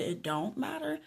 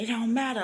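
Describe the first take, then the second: First: "It don't matter?" higher, turned into a question; questioning echo. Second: "It don't matter" as a statement, falling at the end; dismissive statement. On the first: Repeating the woman's words back to her, questioning echo. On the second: Retelling the woman's reply on the train, dismissive statement. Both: Retold or imitated.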